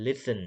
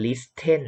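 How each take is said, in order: First: "listen" as li-sn, no t sound; silent T. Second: "listen" said as lis-ten with an audible t; T sounded. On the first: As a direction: say "listen" smoothly, leaving out the t. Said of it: "ตัว T ไม่ออกเสียง". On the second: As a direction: wrongly pronounce the silent t in "listen". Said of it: "เราจะไม่อ่านว่า listen". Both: Shown as a demonstration.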